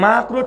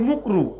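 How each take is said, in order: First: The first vowel is an 'a' sound. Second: The first vowel is an 'u' sound. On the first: The term is said clearly. The speaker calls it right. "মাকরু ঠিক করে বলে না" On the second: The term is blurred so listeners miss its meaning. The speaker calls it wrong. "মাকরু ঠিক করে বলে না, মুকরু"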